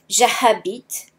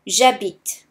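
First: The H at the start is sounded. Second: The H at the start is silent. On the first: The speaker calls it wrong. "So you won't say j'habite" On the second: The speaker calls it right. "but you will say j'habite. Imagine that there is no H there"

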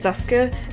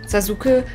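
First: The u after the s is dropped. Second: The u after the s is fully voiced. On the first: The speaker calls it right. "but Sasuke" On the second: The speaker calls it wrong. "you also don't say Sasuke"

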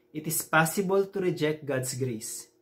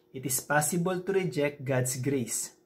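The two takes are said the same way.

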